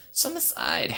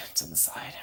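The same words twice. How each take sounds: First: Said in the usual way. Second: Unvoiced whisper of the phrase; secretive whispered aside. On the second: Shown as a demonstration.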